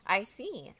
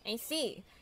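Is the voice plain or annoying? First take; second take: plain; annoying. First: It is said in a plain voice. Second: It is said in an annoying voice.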